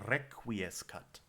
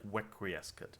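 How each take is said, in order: First: The first sound is a rolled or tapped R. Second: The first sound is like a W. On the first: "it might turn more into a D in a language that doesn't roll" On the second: "you might transcribe it as a W, like almost like wequiescat"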